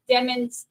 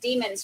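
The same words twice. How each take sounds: First: The name rhymes with lemons. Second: The name does not rhyme with lemons. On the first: The speaker calls it right. "pronounced demons like lemons" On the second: The speaker calls it wrong. "pronounced it as demons for forty years"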